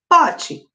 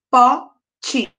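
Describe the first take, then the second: First: Said in the usual way. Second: "pote" as two separate beats, po, te; split into syllables. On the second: Shown as a demonstration. Teacher counting syllables for pupils, "pote" split in two. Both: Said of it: "dividir essas palavras em sílabas".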